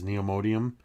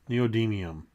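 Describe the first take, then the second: First: It is said as neo-modium. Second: It is said as neo-dymium.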